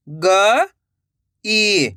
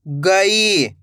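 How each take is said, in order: First: "गई" split with a pause; rising ग, pause, then ई in "गई"; syllable by syllable. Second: Said in the usual way. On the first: Shown as a demonstration. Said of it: "एक एक अक्षर का उच्चारण". ("गई" को तोड़कर, ग... ई) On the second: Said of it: "तो मिलके बन जाएगा".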